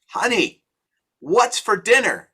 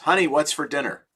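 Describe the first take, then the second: First: It is shouted loudly. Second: It is said at normal volume.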